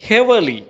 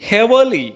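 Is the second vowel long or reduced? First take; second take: reduced; reduced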